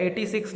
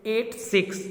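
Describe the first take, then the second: First: Said in the usual way. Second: "एट six" as two separate digits, pitched up. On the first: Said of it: "एटी six नहीं पढ़ना है". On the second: Shown as a demonstration. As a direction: read "एट", then "six", each digit on its own. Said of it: "इसको एक एक digit को पढ़ना है". ("एट six" एक-एक अंक अलग करके)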